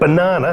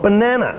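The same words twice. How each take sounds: First: The word uses an English-style pronunciation. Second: The word uses an American-style pronunciation. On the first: The speaker calls it right. "it's pronounced banana" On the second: The speaker calls it wrong. "not banana"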